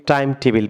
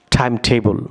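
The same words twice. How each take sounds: First: "time টেবিল" said as "time TE-bil"; wrong pronunciation. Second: "time টেবল" said as "time TE-bol"; correct pronunciation. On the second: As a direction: model "time টেবল" with a rounded last vowel in "bol". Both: Shown as a demonstration. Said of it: "সম্পূর্ণ রং pronunciation".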